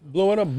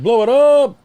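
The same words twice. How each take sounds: First: Said in the usual way. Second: Louder call. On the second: Acted. Urging a friend to enlarge the photo, louder and higher.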